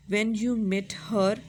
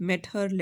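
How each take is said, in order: First: "when you met her" said very slowly, with "her" stretched and stressed; drawn-out rhyme sound. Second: Said in the usual way. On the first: Shown as a demonstration. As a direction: stretch each word and lean hard on "her" to show the rhyme. ("her" को खींचकर और ज़ोर देकर धीरे-धीरे बोलें) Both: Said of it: "ई आर की sound आ रही है ना".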